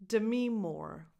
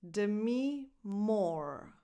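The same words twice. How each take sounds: First: Said in the usual way. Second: "Demi Moore" drawn out slowly, word by word; slow teacher's model of "Demi Moore"; slow demonstration. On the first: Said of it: "find out the correct pronunciation". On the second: Shown as a demonstration. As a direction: say "Demi Moore" very slowly, with a gap between names. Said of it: "This last name is pronounced".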